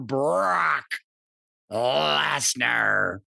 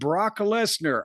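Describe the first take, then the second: First: The name is said in an exaggerated imitated voice. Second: The name is said in an ordinary voice.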